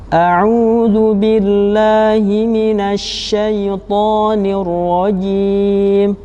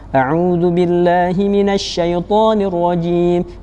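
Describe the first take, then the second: First: It is recited slowly, slightly quicker than very slow. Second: It is recited quickly. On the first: "lebih cepat tetapi tetap tetap lambat" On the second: "yang fast atau cepat"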